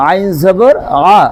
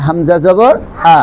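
First: Pressed, drawn-out "আইন জবর আ"; Arabic Ain. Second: Plain, unsqueezed "Hamza জবর আ"; Arabic Hamza. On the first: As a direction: squeeze "আ" from the middle of the throat. (গলা চেপে আইনের "আ") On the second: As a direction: say "আ" with a clean glottal onset. (চাপ ছাড়া হামজার "আ") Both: Shown as a demonstration. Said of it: "পার্থক্য আছে না নাই?".

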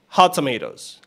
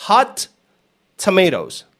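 First: "hot tomatoes" run together with one T; linked hot tomatoes. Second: "hot" high with a full T, pause, "tomatoes"; word-by-word hot tomatoes. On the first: Teacher showing how natives say it, linked. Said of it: "Te va a decir". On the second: Teacher showing what natives won't say, words separated. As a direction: split "hot" and "tomatoes" with a clear gap. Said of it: "El nativo no te va a decir". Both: Shown as a demonstration.

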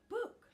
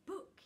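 First: High, loud startled shout; little Tuft cries out to Book in alarm; alarmed cry. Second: High, bright little call; little Tuft happily calls to Book; happy child's call. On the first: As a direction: yell his name in alarm. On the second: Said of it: "he said happily". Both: Acted.

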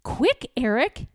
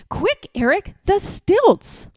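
First: Said in the usual way. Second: Higher, louder eager call; excited shout. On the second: Acted. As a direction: yell it like a boy at play. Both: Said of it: "he'd shout".

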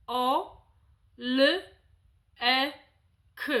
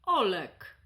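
First: "o, l, e, k" as four separate sounds with pauses between; isolated sounds. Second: Said in the usual way. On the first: Shown as a demonstration. Examiner giving a child the sounds of a name, one at a time. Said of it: "w formie izolowanych głosek". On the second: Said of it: "dziecko powinno je poprawnie wypowiedzieć".

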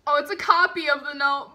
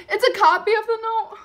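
First: Said in the usual way. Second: High, loud, laughing through tears; laugh-cry the realization; teary laughing squeal. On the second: Real, not acted. Fan laugh-cries finding the note is only a copy.

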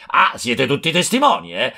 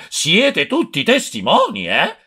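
First: Higher, calling out to the crowd with testimoni falling; rally the bystanders, stress on testimoni; hypocritical yell. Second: Higher still and slow, testimoni drawn out and falling; louder hypocritical yell. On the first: (urlo ipocrita alla folla, testimoni in discesa) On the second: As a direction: hammer it home to the crowd, slow on testimoni. (urlo più insistente e lento, testimoni allungato) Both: A narrator's reading. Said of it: "cominciò a urlare".

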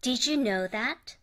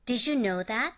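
First: Did you said slowly as didju; slow, join did and you as didju; slow linked ju. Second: Did you said as didju; linked ju. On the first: Slow repeat of didju for students. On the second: Teacher modelling did you linked as didju. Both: Shown as a demonstration. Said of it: "dの後にゆで始まる音".

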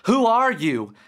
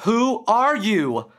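First: Raised, louder insistent question; insistent demand. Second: Higher, louder, slow deliberate demand; commanding demand. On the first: Derek confronting the creature at his bed, insistent raised voice. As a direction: push back at the intruder, voice up. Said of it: "insisted Derek". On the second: Derek, now bolder, demanding the entity's name, slow and loud. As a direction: demand it with new found power, slowly. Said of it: "he demanded". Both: Acted.

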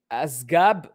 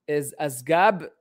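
First: Said in the usual way. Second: Asgab read out slowly, every sound drawn out; slow puzzled reread; slow careful reading. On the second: Shown as a demonstration.

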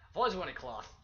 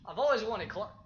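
First: Said in the usual way. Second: Excited. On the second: Real, not acted.

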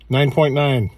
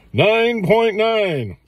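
First: Said in the usual way. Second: High, slow drawn-out score announcement; excited. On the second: Shown as a demonstration. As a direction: stretch it out like a triumphant verdict. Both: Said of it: "repeats the score".

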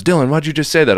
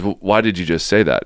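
First: High, loud mock holler of alarm; retold hollering. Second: Said in the usual way. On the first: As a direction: holler it like a rattled friend, pitched up. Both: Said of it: "he's hollering at me".

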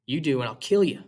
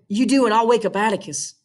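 First: Put-on boy's voice. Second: Higher little sister making a threat; higher girl's voice warning him off. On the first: Jim answers Scout's threat. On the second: Acted. Scout threatens, Jim answers.

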